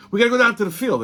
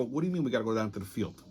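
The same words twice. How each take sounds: First: Higher-pitched insistent repeat; insistent colleague. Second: Low, soft, rapid questioning; baffled reply. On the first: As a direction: imitate someone pressing the point. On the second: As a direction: retell your puzzlement under the voice. Confused reply to the colleague. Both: Retold or imitated.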